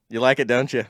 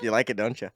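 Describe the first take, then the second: First: Put-on Minnesota accent. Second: Light imitation of a Minnesota accent; a hint of Minnesota vowels. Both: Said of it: "her little Minnesota accent".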